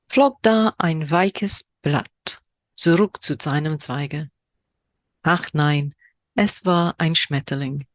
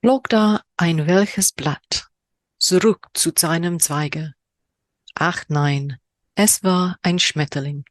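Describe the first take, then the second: First: Very slow, drawn-out recital; slower poem reading in German. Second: Slow, measured poetry reading; poem reading in German. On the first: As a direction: linger over every German word. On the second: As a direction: read the haiku slowly, savouring it. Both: Shown as a demonstration. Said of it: "my horrendous German accent".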